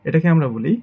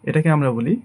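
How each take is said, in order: Both takes have the same delivery.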